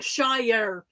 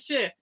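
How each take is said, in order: First: The syllable is full and strongly emphasized. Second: The syllable is weak and reduced, unemphasized. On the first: The speaker calls it wrong. "really putting the emphasis on it" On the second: The speaker calls it right. "It's not"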